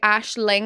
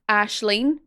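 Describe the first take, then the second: First: The name ends with an 'ing' sound. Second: The name ends with an 'een' sound. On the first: "we say Ashling as" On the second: "in the north, I we say Ashling as Ashleen"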